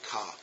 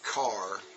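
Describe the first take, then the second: First: It is said weakly, less sharply. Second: It is said strongly and sharply.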